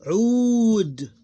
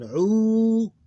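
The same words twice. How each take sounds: First: Ud high, loud and long, ending on bare D; one closed syllable. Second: Udu with a long, high, loud "uu", then separate "du"; two separate syllables. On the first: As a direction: hold Ud as a single syllable closed on D. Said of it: "One closed syllable". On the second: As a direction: split Udu, holding the first syllable. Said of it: "Two separate". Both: Shown as a demonstration.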